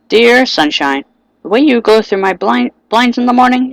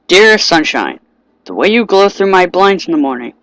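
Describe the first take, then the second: First: It is read in a put-on voice imitating Sayori. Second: It is read in the speaker's natural voice.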